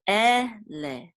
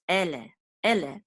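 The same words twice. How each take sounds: First: Ele drawn out in two parts, "eh... leh"; syllable by syllable. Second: Said in the usual way. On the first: Shown as a demonstration. Teacher sounding out Ele for Hebrew learners, syllable by syllable. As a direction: sound out Ele slowly, one syllable at a time.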